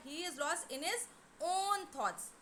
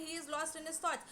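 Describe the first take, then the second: First: "own" drawn out as the most prominent word; stress on "own". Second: Said in the usual way. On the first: Shown as a demonstration. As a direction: lean on "own" and hold it before "thoughts". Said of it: "but just to emphasize, we say that". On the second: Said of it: "but just to emphasize".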